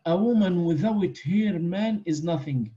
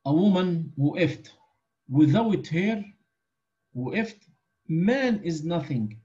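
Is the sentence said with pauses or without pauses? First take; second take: without pauses; with pauses. First: It is said without pauses. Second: It pauses after woman and after her.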